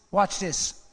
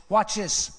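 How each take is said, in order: Both takes have the same delivery.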